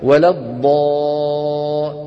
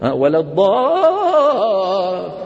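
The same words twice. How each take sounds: First: The pitch stays at one level throughout. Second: The pitch moves up and down during the sound. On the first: The speaker calls it right. "هذا الصوت يلفظ بطبقة صوتية واحدة" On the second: The speaker calls it wrong. "إيش ها؟"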